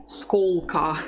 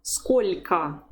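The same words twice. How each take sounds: First: Сколько with a hard, dark L; wrong hard L. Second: Сколько with palatalised L; careful "SKOL'-ka" for Сколько; correct soft L. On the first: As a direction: mistaken "SKOL-ka" without softening in сколько. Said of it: "You don't say сколько". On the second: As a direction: soften the L in Сколько before a weak final "a". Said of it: "because there's the soft sign". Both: Shown as a demonstration.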